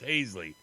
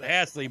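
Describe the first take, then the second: First: The name is said the Iowa way. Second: The name is said the Louisiana way. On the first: The speaker calls it right. "in Iowa it's pronounced" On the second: The speaker calls it wrong. "in Louisiana they might pronounce it"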